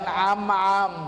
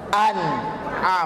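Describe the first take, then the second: First: The middle is said without a glottal stop. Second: The middle is said with a glottal stop. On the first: The speaker calls it wrong. "jangan am-am" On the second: The speaker calls it right. "tapi huruf hamzah, an'am"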